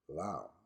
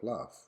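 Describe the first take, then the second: First: It is said as spelled, no 'f' ending. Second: It ends with a clear 'f' sound. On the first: The speaker calls it wrong. "your brain will tend to produce this word as loud" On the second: The speaker calls it right. "instead of laugh"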